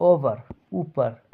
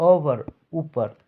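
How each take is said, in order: No difference in how they are said.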